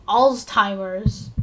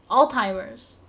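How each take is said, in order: First: Alzheimer's said slowly, with a clear Z sound before the th-like T; Z clearly pronounced. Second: Said in the usual way. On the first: Shown as a demonstration. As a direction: spell out Alzheimer's slowly, leaning on the Z. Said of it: "I had to pronounce the Z in Alzheimer's". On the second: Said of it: "I had to pronounce the Z".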